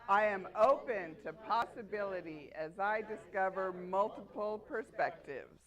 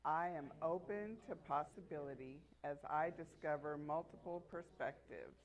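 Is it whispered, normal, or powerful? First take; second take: powerful; normal. First: It is said forcefully, with power. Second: It is said in a normal voice.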